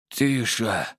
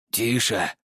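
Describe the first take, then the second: First: Weak, squeezed-out word; hoarse. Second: Composed, unhurried hush; calm, interested. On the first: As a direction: force it from a parched throat. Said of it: "хриплым". (хрипло, с трудом) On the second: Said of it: "прозвучал спокойный и заинтересованный голос Николая". (спокойно и заинтересованно) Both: A narrator's reading.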